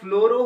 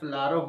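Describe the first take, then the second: First: The vowel is pronounced as an 'o' sound. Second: The vowel is pronounced as an 'a' sound. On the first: "ওকার ও ফ্লোরও হতে পারে" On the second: "আকার ফ্লারও হতে পারে"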